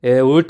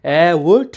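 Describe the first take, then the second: First: Low, firm, louder order; low terse command. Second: Loud call with a rising end; loud angry yell. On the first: Angry elder orders the suitor up, low firm command. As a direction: order them up without shouting. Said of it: "Adhalrao म्हणतात". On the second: Angry elder jumps up at the suitor, loud rising yell. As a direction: yell the order, louder and lifting. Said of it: "जोरात ओरडतात". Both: Retold or imitated.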